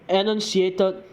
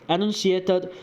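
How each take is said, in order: The two takes are said the same way.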